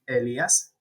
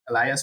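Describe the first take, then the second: First: The name is said with Spanish pronunciation. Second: The name is said with English pronunciation. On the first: "That's how you pronounce it in Spanish" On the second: "for in English"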